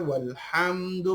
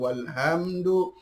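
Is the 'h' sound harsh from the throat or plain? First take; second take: harsh; plain. First: The 'h' is a harsh sound from the throat. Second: The 'h' is a plain, light breath. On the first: The speaker calls it right. "huruf ha" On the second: The speaker calls it wrong. "bukan walhamdu"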